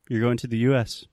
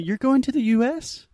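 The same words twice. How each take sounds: First: The voice falls at the end. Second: The voice rises at the end. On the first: The speaker is stating a known fact. "That's a statement" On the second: The speaker is asking whether it is true. "That's just so clearly a question"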